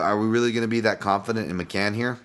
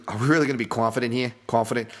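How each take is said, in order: First: Said in the usual way. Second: Quick put-on Boston accent. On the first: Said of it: "sorry, Boston accent there". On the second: Podcaster doubting the favorite, slipping into a Boston accent. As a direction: slip into a mock Boston accent. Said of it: "Boston accent there".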